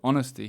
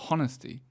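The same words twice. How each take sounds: First: The word begins without an H sound. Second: The word begins with an added H sound.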